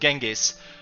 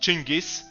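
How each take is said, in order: First: The name is said the usual English way. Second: The name is said the original Mongol way. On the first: "in English people uh, all often call him Genghis" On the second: "the original pronunciation of his name is Chingis"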